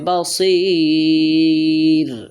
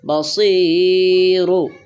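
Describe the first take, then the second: First: The word ends on r with lengthened vowel. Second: The word ends with a short u vowel. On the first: The reading stops at the end of the verse. "যদি আমরা থামি তাহলে হবে বাসির, রাটা সাকিন হবে, তিন আলিফ লম্বা হবে" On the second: The reading continues without stopping. "র পেশ রু"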